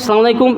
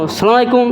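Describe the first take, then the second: First: The greeting starts directly with 'salam'. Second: The greeting starts directly with 'salam'.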